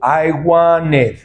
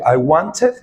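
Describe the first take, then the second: First: The T in the middle is dropped. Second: The T in the middle is pronounced.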